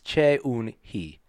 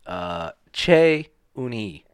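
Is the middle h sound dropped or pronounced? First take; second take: pronounced; dropped. First: The h sound in the middle is pronounced. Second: The h sound in the middle is dropped. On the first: It is the careful full form. "If I were to just pronounce it" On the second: It is the casual everyday form. "If we're saying it in like casual Korean"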